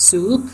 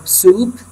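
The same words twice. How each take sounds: First: Said in the usual way. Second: Soup with its long oo vowel stretched slowly; drawn-out soup. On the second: Shown as a demonstration. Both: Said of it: "قلنا soup".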